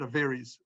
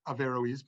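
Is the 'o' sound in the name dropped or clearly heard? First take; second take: dropped; clearly heard. First: The name is said quickly, the o slurred. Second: The name is said with the o clearly sounded. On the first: "like if they're speaking fastly" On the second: "they pronounce the O"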